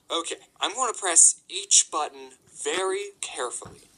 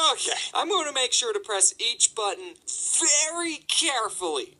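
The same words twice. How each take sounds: First: Deliberate, word-by-word resolve; careful, deliberate. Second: Higher, exaggeratedly deliberate self-instruction; strained resolve. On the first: Retold or imitated. Employee talking himself through the alarm code, deliberate. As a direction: talk yourself through it carefully. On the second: Employee retrying the alarm code, strained and emphatic. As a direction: stress each word with mounting exasperation.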